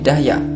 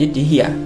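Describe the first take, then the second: First: The first vowel is an 'a' sound. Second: The first vowel is an 'i' sound. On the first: "dengan difathah dalnya menjadi Dahya" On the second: "dikasroh dalnya menjadi Dihya"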